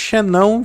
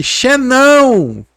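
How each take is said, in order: First: Said in the usual way. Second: XENÃO stretched long, high and loud; catchphrase shout. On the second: Shown as a demonstration. Showing the term his family picked up, Xenão as a drawn-out catchphrase shout. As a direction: holler Xenão with the last syllable held. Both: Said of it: "E falando desse jeito".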